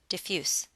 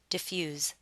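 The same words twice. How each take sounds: First: The word ends with a hissing s sound. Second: The word ends with a buzzing z sound. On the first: The word is used as an adjective. "if you're using this word as an adjective, you need to pronounce it with an S sound" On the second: The word is used as a verb. "If you're using this word as a verb, you'll want to pronounce it with a Z sound"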